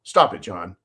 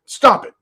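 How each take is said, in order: First: Lower, firm stop; mock stern. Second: Higher, louder pleading stop; mock scolding. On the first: Caller telling John to stop, dropped low and firm. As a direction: drop down and scold yourself by name. Caller scolds his other personality. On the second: Caller telling his other personality to stop, higher and louder. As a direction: snap at the other self breaking through.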